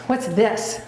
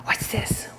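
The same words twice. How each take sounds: First: Said in the usual way. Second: Unvoiced whisper of What's this. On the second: Real, not acted. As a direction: whisper What's this to tease the dog. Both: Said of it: "What's this? whispered".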